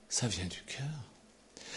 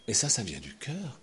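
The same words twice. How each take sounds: First: Whispered slowly, much softer. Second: Said in the usual way. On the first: Acted. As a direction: breathe it out gently. («Ça vient du cœur» chuchoté lentement)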